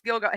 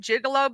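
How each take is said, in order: First: The name has two syllables, like gil-go. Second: The name has three syllables, like gigolo. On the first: The speaker calls it right. "oh, it's Gilgo" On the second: The speaker calls it wrong. "I called it the Gigolo Beach"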